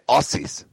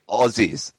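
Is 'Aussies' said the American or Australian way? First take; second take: American; Australian. First: It is said with an American pronunciation. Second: It is said with an Australian pronunciation. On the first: The speaker calls it wrong. "They say Aussies" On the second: The speaker calls it right. "sometimes Americans can't say Aussies"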